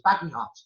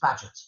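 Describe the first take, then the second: First: The name is said as three syllables, 'Baggy Hot'. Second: The name is said as two syllables, 'Badgett'. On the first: The speaker calls it wrong. "I pronounced this man's name, B A G E H O T, as Baggy Hot" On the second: The speaker calls it right. "it's not Baggy Hot, it's Badgett"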